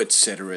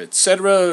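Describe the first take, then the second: First: Said in the usual way. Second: Loud high herald flourish; et cetera rung out like a herald; lusty herald voice. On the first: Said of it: "It goes on like this for a bit". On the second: Acted. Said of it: "in a lusty voice began".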